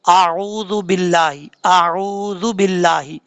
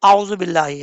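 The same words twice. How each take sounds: First: आऊज़ु बिल्लाही slowly, with a long oo; correct recitation. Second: आऊज़ु बिल्लाही quickly, with a short u; dropped waaw. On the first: Teacher reciting the opening formula properly, long oo in आऊज़ु बिल्लाही. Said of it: "Quran पाक start करते हैं क्या पढ़ते". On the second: Teacher imitating people's mistake, short clipped oo in आऊज़ु बिल्लाही. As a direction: rush आऊज़ु without lengthening the oo. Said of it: "आइन के बाद जो वाव है उसको छोड़ देते हैं". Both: Shown as a demonstration.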